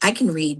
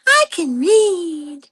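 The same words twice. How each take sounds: First: It is said in the speaker's normal voice. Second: It is said in a put-on cartoon child voice.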